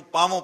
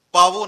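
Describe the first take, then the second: First: ਪਾਵੋਂ with a nasalised final o; correct reading demo. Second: ਪਾਵੋ with a plain final o, no nasal; wrong reading demo. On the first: Preacher showing readers the proper reading, ਪਾਵੋਂ with nasal ending. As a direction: end ਪਾਵੋਂ on a nasal vowel. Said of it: "ਇਹਨੂੰ ਪਾਵੋਂ ਪੜ੍ਹਨਾ ਹੈ". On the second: Preacher warning readers off a misreading, ਪਾਵੋ without nasal ending. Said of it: "ਪਾਵੋ ਨਹੀਂ ਪੜ੍ਹਨਾ ਇਹਨੂੰ". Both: Shown as a demonstration.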